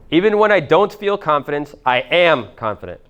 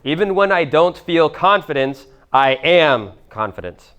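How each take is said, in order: First: Repeated higher, opening words lifted, faster than the dictation; higher, emphatic repeat for the room. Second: Slow, each word set apart for writing down; slow, deliberate dictation to the room. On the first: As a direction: say it again with conviction. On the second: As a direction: dictate it slowly so they can write it. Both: Shown as a demonstration. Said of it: "Write this down also".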